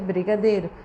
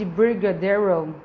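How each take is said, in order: First: It is said with a Brazilian Portuguese accent. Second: It is said with an English-style accent. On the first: The word keeps its original sounds. The speaker calls it right. "o fonema dela é brigadeiro" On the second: The word is adapted to a foreign way of speaking. The speaker calls it wrong. "se você vai falar assim, I did brigadeiro, tipo, essa palavra nem existe"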